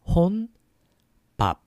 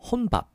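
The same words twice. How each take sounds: First: It is said slowly. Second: It is said faster.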